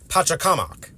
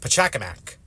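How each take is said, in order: First: The name is pronounced in a Quechua way. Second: The name is pronounced in an English way. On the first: "In the native Quechua language, the pronunciation is, or at least is much closer to" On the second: "while in English it gets translated as"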